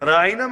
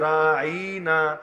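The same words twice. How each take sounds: First: The word is said without a drawn-out vowel. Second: The vowel is drawn out with a long pull. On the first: Please look toward us. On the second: Our shepherd, said as a mockery.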